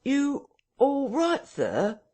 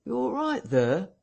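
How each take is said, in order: First: Very high, slow, insistent call; sharp query. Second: High-pitched landlord calling in; calling through door. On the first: Landlord asks again through the parlour door, sharply. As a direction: call it sharply, stretching each word high. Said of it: "asked Mister Hall sharply". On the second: Landlord rapping on the parlour door, calling in with concern. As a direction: call a high, questioning check through a door. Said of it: "asked Hall, rapping". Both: A narrator's reading.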